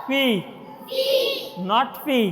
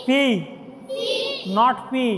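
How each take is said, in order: Both takes have the same delivery.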